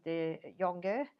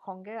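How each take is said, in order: First: "Jonge" as a first try at the Flemish name; first pronunciation attempt. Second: "Jonge" sounded another way, as a second guess; alternative pronunciation. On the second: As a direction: say "Jonge" as an unsure alternative Flemish reading. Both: Shown as a demonstration. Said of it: "I don't know how you pronounce her name".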